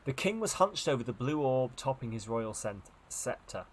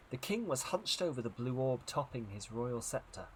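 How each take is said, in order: First: Narrated line re-read with "was hunched" lifted; rephrased intonation. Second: Narrated line with an early pitch lift on "king"; first phrasing. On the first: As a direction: lift "was hunched", then step down to "scepter". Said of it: "Not the other way I put the intonation". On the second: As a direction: lean on "king", then fall away to "scepter". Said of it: "I'm gonna phrase that differently". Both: A narrator's reading.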